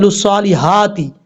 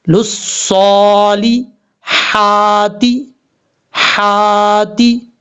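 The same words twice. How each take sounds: First: हाती said with a plain short i as a mistake; wrong reading. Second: हाती recited very slowly with a thin throat ha; correct recitation. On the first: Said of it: "हाती नहीं पढ़ना". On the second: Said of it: "तो कैसे पढ़ा जाएगा". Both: Shown as a demonstration.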